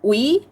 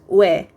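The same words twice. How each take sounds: First: The vowel sounds like o followed by i. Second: The vowel sounds like a single 'weh'. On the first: The speaker calls it wrong. "you would think that it's pronounced as" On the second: The speaker calls it right. "but actually it's pronounced as"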